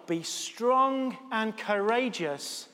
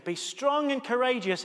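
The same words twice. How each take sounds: First: Very slow, each word of "Be strong and courageous" weighed, "strong" stressed with a falling tune; slow solemn quote. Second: Said in the usual way. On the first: Shown as a demonstration. Vicar quoting God's words to Joshua, slow solemn emphasis. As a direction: read "Be strong and courageous" slowly like scripture. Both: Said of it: "God says to Joshua".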